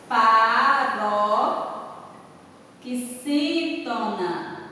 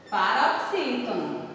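First: Paroxítona in very slow, separated chunks; drawn out slowly. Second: Said in the usual way. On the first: Shown as a demonstration. Teacher classifying panela for the class, drawn out very slowly. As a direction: stretch paroxítona out syllable by syllable. Teacher gives answer syllable by syllable.

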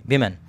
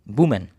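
First: विमेन with a short i sound in the first syllable, said clearly on its own; विमेन pronounced as the plural, contrasting with वुमेन; plural women. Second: वुमेन with an oo sound in the first syllable, said clearly on its own; वुमेन pronounced as the singular form, not the plural; singular woman. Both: Shown as a demonstration. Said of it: "वुमेन को हम विमेन कर देंगे".

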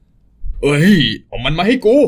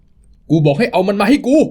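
First: Slow menacing demand. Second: Higher, slow, pressing demand; angrier, slow demand. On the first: Thug demands the child. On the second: Thug repeating his demand for the child, slower and higher. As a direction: insist harder, word by word. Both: Acted.

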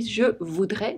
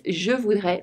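First: "je voudrais" said as future, without S; wrong form, no S. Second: "je voudrais" said as conditional, with S; right form, with S. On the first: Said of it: "It would be ... without S". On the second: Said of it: "Here it's ... with an S". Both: Shown as a demonstration.

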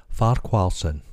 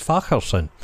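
First: "Farquharson" said as spelt, with a kw sound; "Farquharson" pronounced far-KWAR-sun; English-style surname pronunciation. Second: "Facherson" with a throaty ch, no kw; "Facherson" with the ch of loch; northern Scottish pronunciation. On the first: Retold or imitated. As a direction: say "Farquharson" with a clear "kw" in the middle. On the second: Shown as a demonstration. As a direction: say "Facherson" the Scottish way, as FACH-er-son. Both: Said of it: "How we pronounce that up north?".

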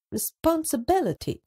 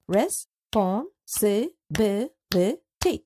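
First: Said in the usual way. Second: Responsibility drawn out in six slow parts; slow syllables. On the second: Shown as a demonstration. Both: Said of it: "and six parts or syllables".

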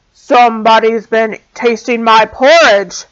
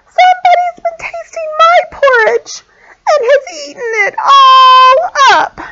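First: Loud great big bear. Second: Very high, wailing little bear; wee little voice. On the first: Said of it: "in a great big voice". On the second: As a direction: cry it out like a tiny upset cub. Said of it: "cried the wee little bear in his wee little voice". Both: A narrator's reading.

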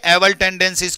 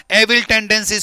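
First: एवल said with a short, loose second vowel, e-vul; एवल as e-vul, the vowel barely there; first pronunciation. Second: एविल with a clear short i, e-vil; corrected pronunciation. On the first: (एवल को ढीले छोटे स्वर से, ए-वल) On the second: (एविल को साफ़ इ के साथ, ए-विल) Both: Shown as a demonstration. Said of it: "किसकी बेटा?".

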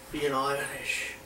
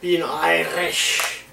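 First: Put-on quiet slow Irish accent. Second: Put-on slow Irish accent. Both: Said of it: "Oh, I can do it".

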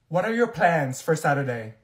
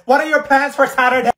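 First: Said in the usual way. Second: Much louder, higher, over the noise; loud, higher yelled question; loud chatter. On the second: Acted. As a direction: shout it across the room.

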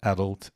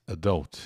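First: "adult" said AD-ult; "adult" with a strong AD and weak ending; first-syllable stress. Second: "adult" said a-DULT; "adult" with a weak first vowel and strong DULT; second-syllable stress. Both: Shown as a demonstration. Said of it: "as duas pronúncias de adult".

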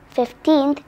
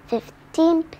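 No difference in how they are said.

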